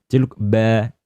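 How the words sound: It is said with a Jakarta accent. "Kalau orang mungkin Jakarta beda ya"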